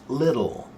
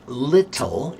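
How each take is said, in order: First: The middle T is a quick, soft flap. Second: The middle T is a hard, full stop. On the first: The speaker calls it right. "it's little" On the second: The speaker calls it wrong. "So now it's not little"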